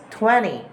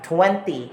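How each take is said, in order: First: "twenty" as "twenny", no second T; American "twenty", T melts into the N; American dropped T. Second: "twenty" with both T's pronounced; British "twenty", T after the N sounded; British clear T. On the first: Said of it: "in American English". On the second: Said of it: "will not be sounded like". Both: Shown as a demonstration.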